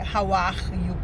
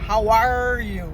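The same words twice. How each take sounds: First: The R in 'are' is not curled. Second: The R in 'are' is strongly curled. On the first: The speaker calls it wrong. "Não pode ser" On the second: The speaker calls it right. "O R em inglês é o mais caipira possível"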